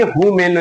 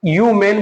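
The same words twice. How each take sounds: First: हु मैन with a clear h at the start; हु मैन sounding the h, the mistake; wrong h pronounced. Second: यू मैन starting on the y sound, no h; यू मैन with the h dropped, correct; silent h. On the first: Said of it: "हु मैन नहीं बोलेंगे". (हु मैन, ह बोलकर, गलत उच्चारण) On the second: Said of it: "तो हम यू मैन बोलेंगे". (यू मैन, ह साइलेंट, सही उच्चारण) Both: Shown as a demonstration.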